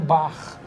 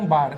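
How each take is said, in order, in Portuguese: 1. O r final é pronunciado do jeito carioca. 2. O r final é pronunciado de forma não carioca. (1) "fala um bar" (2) "o carioca não fala um bar"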